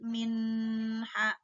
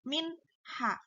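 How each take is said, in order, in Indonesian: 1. Bunyi n ditahan sebelum h. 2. Bunyi n dilepas dengan jelas sebelum h. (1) "Nggak boleh kita uh, tahan min ha, nggak boleh" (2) "Harus dilepas min ha"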